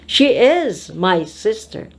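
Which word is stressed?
my. The stress falls on the word my. She is my sister, not someone else's. "Not Brenda's"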